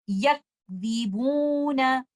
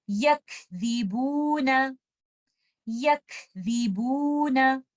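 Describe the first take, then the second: First: यकज़िबूना with no breath on काफ and a nasal बू; wrong recitation. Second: यकज़िबूना slow, breathy काफ, no nasal on the बू; proper recitation. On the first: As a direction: show the mistake: nasalise the stretched बू. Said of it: "क्या गलती हम इसमें कर सकते हैं". (यकज़िबूना गलत, गुन्ना के साथ) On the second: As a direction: recite यकज़िबूना slowly and correctly. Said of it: "इसकी प्रॉपर अदायगी". (यकज़िबूना सही अदायगी) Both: Shown as a demonstration.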